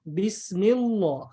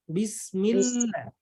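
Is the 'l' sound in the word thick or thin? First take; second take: thick; thin. First: The 'l' sound is heavy and thick. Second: The 'l' sound is light and thin. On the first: The speaker calls it wrong. "Bukan Bismillah. Ada orang baca Bismillah itu salah" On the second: The speaker calls it right. "Jadi bacaannya yang betul adalah Bismillah"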